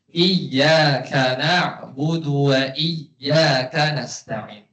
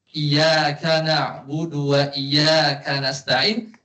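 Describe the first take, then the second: First: The y sound in iyyaka is held double. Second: The y sound in iyyaka is short, single. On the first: It means 'You alone we worship and ask for help.' The speaker calls it right. "Sini ada tasydid ya, bacanya gimana?" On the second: It means 'Your sunlight we worship and ask for help.' The speaker calls it wrong. "tapi kalau tasdidnya hilang"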